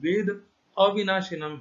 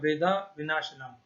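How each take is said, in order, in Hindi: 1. विराम 'avinashinam' से पहले आता है, पहले छोटा 'veda'। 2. विराम 'vinashinam' से पहले आता है, पहले लंबा 'vedaa'। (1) "पदच्छेद में देखिए" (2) "बिना संधि को तोड़े पढ़ेगा"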